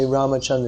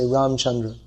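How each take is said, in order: First: Ramachandra with the a after m sounded; full Ramachandra. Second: Ramchandra with no a after m; Hindi-style Ramchandra. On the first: Teacher showing Sanskrit form, Ramachandra with every vowel. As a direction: keep the middle a in Ramachandra. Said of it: "they won't say Ramachandra". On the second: Teacher showing Hindi usage, Ramchandra without middle vowel. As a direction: run m straight into ch in Ramchandra. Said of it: "they say Ramchandra". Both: Shown as a demonstration.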